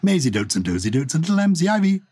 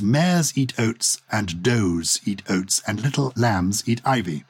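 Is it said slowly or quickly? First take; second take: quickly; slowly. First: It is said quickly, the words run together. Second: It is said slowly, each word separate.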